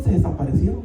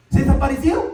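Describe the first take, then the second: First: Said in the usual way. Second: "Se desaparecieron" shouted louder and higher; emphatic repeat. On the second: Shown as a demonstration. Preacher driving the point home to the congregation, emphatic shout. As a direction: punch "Se desaparecieron" out loud and high.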